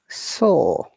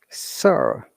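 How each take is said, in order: First: It is said in a British accent. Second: It is said in an American accent. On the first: "British accent" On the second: "American accent"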